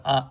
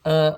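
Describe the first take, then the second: First: Second "a" as a full "aah"; southern open vowel. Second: First "a" as a short "uh"; northern schwa. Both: Shown as a demonstration. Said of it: "the way they say that".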